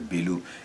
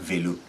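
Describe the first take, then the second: First: The word begins with a b sound. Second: The word begins with a v sound. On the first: The speaker calls it right. "c'est bélo" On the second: The speaker calls it wrong. "On ne dit pas vélo"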